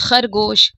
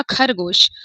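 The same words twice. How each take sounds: First: खरगोश with a rasping throat x; खरगोश with a throaty x; raspy throat x. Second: खरगोश with a plain aspirated kh; the wrong way, hard kh. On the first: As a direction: scrape the ख in खरगोश. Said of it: "नुक्ता रखेंगे तब होगा". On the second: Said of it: "नहीं तो क्या होगा?". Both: Shown as a demonstration.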